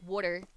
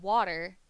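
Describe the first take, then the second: First: Water said the Philly way, like "wooder"; regional pronunciation. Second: Said in the usual way. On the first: Shown as a demonstration. Streamer showing a hometown slip, water as "wooder". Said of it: "'cause I do do that from time to time". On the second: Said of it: "But if I were to go".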